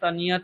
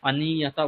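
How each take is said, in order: First: The word ends without a final vowel. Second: The word ends with a final vowel. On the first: The speaker calls it wrong. "অনিয়ত অনিয়ত বললে কিন্তু হবে না" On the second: The speaker calls it right. "অনিয়তা বলতে হবে"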